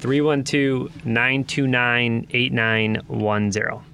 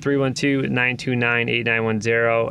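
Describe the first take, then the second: First: The number is said more slowly. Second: The number is said at normal speed.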